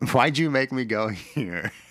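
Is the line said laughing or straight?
laughing. The line is said while laughing. The speaker calls it wrong.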